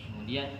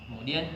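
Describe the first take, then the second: No difference in how they are said.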